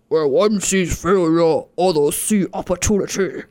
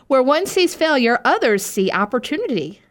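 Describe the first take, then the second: First: It sounds dark and menacing, like a villain speaking. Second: It sounds bright and uplifting, like a motivational poster. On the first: The line is presented as a sinister threat. The speaker calls it right. "When it should be like" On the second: The line is presented as an encouraging motto. The speaker calls it wrong. "I make these sound like such like inspirational like posters"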